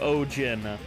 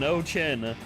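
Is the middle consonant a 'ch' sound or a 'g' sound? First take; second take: g sound; ch sound. First: The middle consonant is a 'g' sound. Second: The middle consonant is a 'ch' sound. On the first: The speaker calls it right. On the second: The speaker calls it wrong. "not Jack and O Chin"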